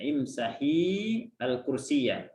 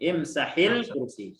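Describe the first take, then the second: First: The article is cut off from the verb. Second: The article is joined onto the verb. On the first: The final vowel of the verb can be heard clearly. "alnya diputuskan supaya untuk membedakan" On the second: The final vowel of the verb is less distinct. "boleh dibaca dibaca wasal panjang"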